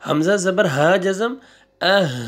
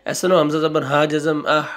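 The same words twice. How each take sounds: First: अह with a short, light h at the end; correct reading. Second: अह read as a full हा instead of a clipped h; wrong reading, said as हा. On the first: Teacher giving students the right reading after the mistake, short अह. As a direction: close अह on a brief breath of h. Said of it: "हा पढ़ना है आपने". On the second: Teacher showing students the mistake, reading हा not अह. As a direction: read the letter name हा in place of the sound. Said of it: "हा नहीं पढ़ लेना". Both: Shown as a demonstration.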